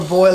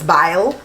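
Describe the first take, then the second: First: The vowel is said as 'oy'. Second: The vowel is said as 'eye'.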